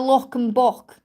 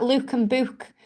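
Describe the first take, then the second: First: Said in the usual way. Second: "look" and "book" with a long oo, like Luke and booke; Stoke pronunciation. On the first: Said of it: "instead of". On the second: Shown as a demonstration. [name] showing viewers her Stoke accent, long oo in "look" and "book". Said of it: "That's why I say things like".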